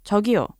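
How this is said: It is said curtly, sounding upset.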